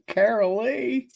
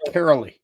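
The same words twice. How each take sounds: First: It is said in a Southern accent. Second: It is said in a plain accent.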